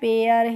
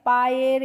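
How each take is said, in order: First: The vowel sounds like 'air'. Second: The vowel sounds like 'eye' plus 'er'. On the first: The speaker calls it right. "हमें पढ़ना है पेयर" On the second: The speaker calls it wrong. "पायर इस तरीके से ... नहीं पढ़ना है"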